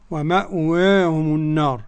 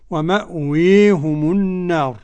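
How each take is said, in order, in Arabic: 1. الصوت الطويل فتحة كاملة. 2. الصوت الطويل ممال بقوة نحو الكسرة. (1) "والفتح" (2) "الإمالة الكبرى"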